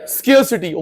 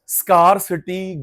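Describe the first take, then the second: First: The first syllable rhymes with 'care'. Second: The first syllable rhymes with 'car'. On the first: The speaker calls it right. "स्केयर्स क्या?" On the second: The speaker calls it wrong. "स्कारसिटी गलत आपका teacher बोलता है"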